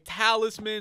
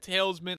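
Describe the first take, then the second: First: The second syllable sounds like 'liss'. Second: The second syllable sounds like 'less'. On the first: The speaker calls it right. "talisman instead of saying" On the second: The speaker calls it wrong. "I don't know why I first started to say talesman"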